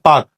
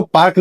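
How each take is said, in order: First: पार्क said as paak with no r; पार्क, r dropped, long aa then k; silent r. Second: पार्क said with the r sounded, paark; पार्क with a clear r before the k; wrong pronunciation. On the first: Teacher showing students the right way, पार्क with silent r. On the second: Teacher showing students the wrong way, r sounded in पार्क. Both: Shown as a demonstration. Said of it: "आर silent होता है".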